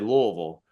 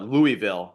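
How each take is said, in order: First: It is said the way Kentucky locals say it. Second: It is said the way New Jersey speakers say it. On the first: This is how people from the area say it. "we'll say Louisville, right? That's the proper way to pronounce it" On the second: This is how outsiders say it. "Everyone in, in New Jersey would call it Louisville"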